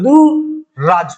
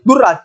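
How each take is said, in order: First: The first vowel is long, with a single r. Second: The first vowel is short, followed by a doubled r. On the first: The speaker calls it right. "प्रारंभिक मात्रा बड़ी हो जाएगी" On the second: The speaker calls it wrong. "लेकिन दुर्राज नहीं बनेगा"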